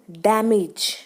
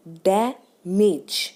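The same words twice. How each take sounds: First: Said in the usual way. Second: damage slowly split as डै, मेज, weight on डै; first-syllable stress. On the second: Shown as a demonstration. Teacher counting two syllables, slow split damage stressed on डै. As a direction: break damage in two and lean on डै. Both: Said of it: "stress हम पहले syllable पे दे रहे हैं".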